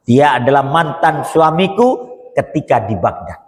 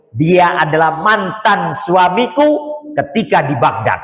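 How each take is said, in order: First: Said in the usual way. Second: Slow, drawn-out reveal, stress on suamiku; dramatic slow reveal of the twist. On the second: Shown as a demonstration. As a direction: let the twist land slowly.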